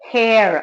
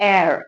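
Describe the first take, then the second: First: The word begins with an h sound. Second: The word begins with a vowel sound. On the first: The speaker calls it wrong. "ஹேர் அப்படின்னு சொல்ல மாட்டோம்" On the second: The speaker calls it right. "ஏர் சொல்லுவோம்"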